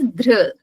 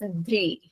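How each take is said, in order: First: The syllable ends in an r sound. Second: The syllable ends in an ee vowel. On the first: This is how the speaker's own group says it. "we pronounce it as dhr" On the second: This is how someone else says it. "Swamiji pronounced it as dhri"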